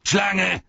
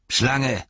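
First: High, louder second call. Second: Calling out. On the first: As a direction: call the servant sharply. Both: Acted. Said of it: "rief Saruman".

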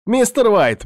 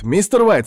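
First: Much higher, anxious call; excited calling. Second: High, urgent repeated call; excited calling. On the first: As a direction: call out to him in alarm. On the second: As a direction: call again, worried. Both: Acted. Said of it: "прибежал возбуждённый Артур".

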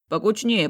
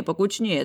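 First: Louder, higher call to squeeze in. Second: Said in the usual way. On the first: Acted. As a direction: call the group closer. Uncle herding the family photo.

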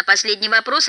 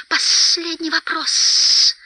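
First: Said in the usual way. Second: High, slow creature hiss; sibilant, drawn-out echo; Gollum's echo. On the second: A narrator's reading. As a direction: repeat it high with long hissed s sounds. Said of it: "повторил Голлум".

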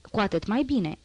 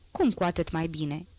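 First: Said in the usual way. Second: "cum" asked in mild wonder, pitch rising on it; surprised question. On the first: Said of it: "zise omul". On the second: A narrator's reading. Wife questions her husband's "so much the better", mildly surprised. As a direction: echo it back as a puzzled question. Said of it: "se miră femeia".

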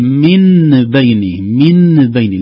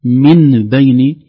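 First: من بين with a fully sounded nun before the ba; very slow, loud, nun pressed hard against the ba; heavy clear nun. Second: من بين said as mim bayn, lips closed; very slow and loud, nun flipped to mim; nun turned to mim. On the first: Teacher shows the clumsy clear nun in من بين. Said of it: "لكن لاحظوا الثقل". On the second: Teacher shows iqlab, nun becoming mim. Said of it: "تغير الحرف". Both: Shown as a demonstration.

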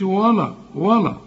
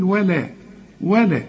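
First: ولا as dark "waw-law"; wrong heavy lam. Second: ولا as thin "wae-lae"; light lam. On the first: Teacher shows what not to say, wrong heavy lam. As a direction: thicken و and ل in ولا. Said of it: "ما تقولش". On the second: Teacher models it for the student, light lam. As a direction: keep both و and ل light in ولا. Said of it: "وكل لام في القرآن حروف مرققة". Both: Shown as a demonstration.

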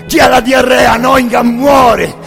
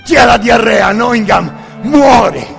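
The two takes are said the same way.

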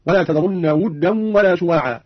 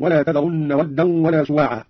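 First: ودا with damma on the waw, "wuddan"; Qalun reading. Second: Said in the usual way. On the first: Shown as a demonstration. Teacher demonstrating Qalun's variant, ودا said "wuddan". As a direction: slowly recite ودا as "wuddan", u after the w. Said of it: "قرأ قالون بضم الواو هكذا". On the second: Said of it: "قوله تعالى".

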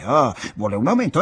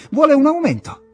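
First: Said in the usual way. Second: Sudden high, loud mock exclamation; scornful "ah, so that's it"; mocking realization. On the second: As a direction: sneer it out, much higher and louder, as if you've caught him. Egström mocks the guessed motive.

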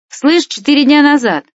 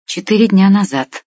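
First: High, excited call, only mildly louder; shouting into phone. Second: Said in the usual way. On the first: A narrator's reading. Stas relays the news to Vlad by phone, calling out high. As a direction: relay it down the line, pitched right up. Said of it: "продолжал кричать в трубку". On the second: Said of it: "ответил я".

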